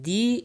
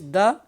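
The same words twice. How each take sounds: First: The word has a full vowel. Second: The word has a reduced schwa vowel. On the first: It is used before vowels. "it is a strong form" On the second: It is used before consonants. "it is known as weak form"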